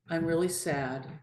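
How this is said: It is said in a calm, even tone. The speaker is simply sharing a feeling. "if you say something calmly"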